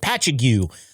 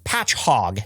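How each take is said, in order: First: It is read out literally from the spelling. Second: It is said with the local pronunciation. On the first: The speaker calls it wrong. "say it" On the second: The speaker calls it right. "it's actually"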